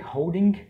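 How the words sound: The final g sound is clearly pronounced. This is how it is said in England. "na Inglaterra a gente que pronuncia o G"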